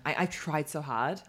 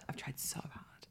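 First: Said in the usual way. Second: Soft whispered aside; whispering. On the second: Acted. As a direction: whisper it sadly to yourself. Rueful whispered repeat.

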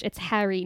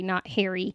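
First: Harry with a short flat A as in hat; Harry said the New Jersey way, short A. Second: Harry rhyming with hairy; Harry with an AIR vowel, as the wrong way; non-Jersey Harry. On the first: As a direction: say Harry with the vowel of cat. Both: Retold or imitated. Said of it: "she would always be like".

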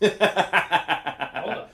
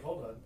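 First: Loud, laughing hold on. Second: Softer, calm hold on; quiet retelling. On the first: Real, not acted. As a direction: blurt it out mid-laugh. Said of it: "I was just like, "Hold on". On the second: Retold or imitated. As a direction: mutter it as a retold aside. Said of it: "I was just like".

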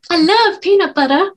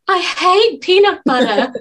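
First: Camp it up on love. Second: Slow, high camp mimicry; mock him with a camp flourish; camp imitation. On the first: Retold or imitated. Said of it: "make me really camp". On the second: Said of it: "the way you said".

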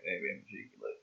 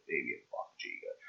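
First: Low muttering to self. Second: Lower, fast mutter to self. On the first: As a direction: grumble it under the breath. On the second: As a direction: rattle it off under the breath. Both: Real, not acted.

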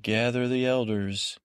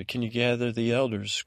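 First: Mildly commanding, retold order. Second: Reworded order as a rising question; retold request. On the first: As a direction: give a brief instruction, lightly acted. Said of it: "Don't order me around". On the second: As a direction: soften the order into a mock request. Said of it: "I'm not ordering you".

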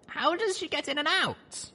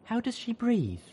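First: High, curious falling question; curious young mare voice. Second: High, aghast question. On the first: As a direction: ask in a high wondering voice. Narrator voiced high, asks. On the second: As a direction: ask it horrified. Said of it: "Velvet wondered, aghast". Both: Acted.

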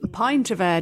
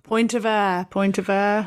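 First: "pint" with an eye vowel. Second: Put-on "Point" with an oy vowel, as in boy. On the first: Shown as a demonstration. Co-host checking what guest said, "pint" with an eye sound. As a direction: check the word, saying "pint" to rhyme with mint-free "eye-nt". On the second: Co-host echoing guest's misheard words, "Point" with an oy sound. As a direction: echo the misheard accent, saying "Point" with a clear oy. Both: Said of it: "Sorry, it was the accent".

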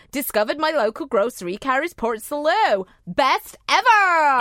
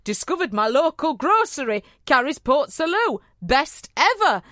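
First: A gushing northern fan, Best ever stretched out; Melissa's voice. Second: Put-on northern accent. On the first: Retold or imitated. Reading the fan's line as Melissa would, gushing northern accent. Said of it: "So she's actually saying". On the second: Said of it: "Sorry about that northern accent".

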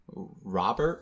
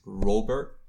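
First: Robert said with an open "ah", RAH-bert; first pronunciation. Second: Robert said with a long "oh", ROH-bert; alternative pronunciation. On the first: Host guessing at a listener's name, Robert pronounced RAH-bert. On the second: Host guessing at an accented name, Robert pronounced ROH-bert. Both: Shown as a demonstration. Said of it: "he's got that accent on it".

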